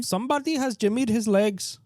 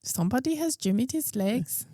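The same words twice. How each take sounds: First: Put-on higher Indian accent, lightly done; a clumsy Indian accent; mock Indian accent. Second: Put-on failed Indian accent. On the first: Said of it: "Indian accent". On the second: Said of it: "It's Irish a little bit".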